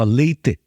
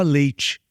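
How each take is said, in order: First: Leite with a crisp t and a final e; LEY-teh, clear t, no ch sound; gaúcho accent. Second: Leite ending in chee, t softened; usual Brazilian leite. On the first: Imitating a gaúcho saying leite as ley-teh. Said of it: "ele não fala leite". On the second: Pastor gives the usual way: leite as ley-chee. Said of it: "Você vai ouvir um gaúcho falando". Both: Shown as a demonstration.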